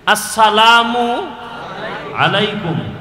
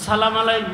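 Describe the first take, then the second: First: The greeting is said in full, every syllable. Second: The greeting is clipped and run together. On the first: The speaker calls it right. "শুদ্ধ করে সালাম দিলে" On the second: The speaker calls it wrong. "মালাইকুম কি?"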